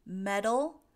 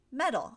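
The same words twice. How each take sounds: First: "Metal" as a louder model word, rising at the end; pronunciation demo. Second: "metal" higher and louder, falling at the end; pronunciation demo. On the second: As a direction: say "metal" with the same flapped D sound, closing the pair. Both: Shown as a demonstration. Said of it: "those two sound pretty alike".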